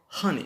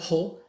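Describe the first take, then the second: First: The first vowel falls between 'a' and 'o'. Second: The first vowel is a clear 'oh' sound. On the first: The speaker calls it right. "we say honey between A and O" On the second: The speaker calls it wrong. "We don't say ho"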